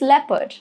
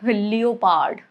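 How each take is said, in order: First: The o is silent and not pronounced. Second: The o is pronounced as its own vowel. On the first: The speaker calls it right. "O is silent here" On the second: The speaker calls it wrong.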